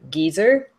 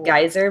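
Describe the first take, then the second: First: It is said with a British pronunciation. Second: It is said with an American pronunciation. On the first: "but they say" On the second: "we say"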